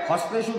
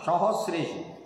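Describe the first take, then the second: First: The word begins with 'ha', dropping the first syllable. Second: The word begins with 'sa', with all syllables. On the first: The speaker calls it wrong. "আরে হস্তেষু না" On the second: The speaker calls it right.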